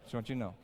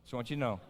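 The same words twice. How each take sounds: The two takes are said the same way.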